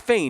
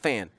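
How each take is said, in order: First: The name rhymes with 'pain'. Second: The name rhymes with 'pan'. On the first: The speaker calls it right. "so so it is it is Fane" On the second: The speaker calls it wrong. "not Fan. I say it wrong"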